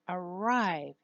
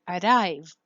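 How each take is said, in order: First: The R is a smooth approximant. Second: The R is a quick flap. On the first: The speaker calls it right. "You use the posterior approximant" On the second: The speaker calls it wrong. "you don't say"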